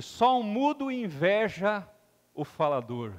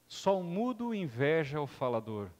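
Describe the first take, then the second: First: Slow weighty quote with pause; quoted saying. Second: Said in the usual way. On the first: Shown as a demonstration. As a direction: give the quote gravity. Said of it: "Khalil Gibran disse o seguinte". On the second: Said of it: "repeated for reflection".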